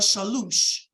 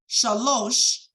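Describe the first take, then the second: First: The second vowel is a U sound. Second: The second vowel is an O sound. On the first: This is the older regional pronunciation. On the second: This is the standard Hebrew pronunciation.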